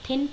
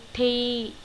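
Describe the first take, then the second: First: It ends with a full n consonant. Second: It ends with a lightly nasal vowel. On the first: The speaker calls it wrong. "आप इसे एकदम से thin पढ़ लेंगे, but नहीं" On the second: The speaker calls it right. "इस न की हल्की सी जो साउंड आ रही है"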